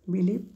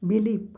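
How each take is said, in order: No difference in how they are said.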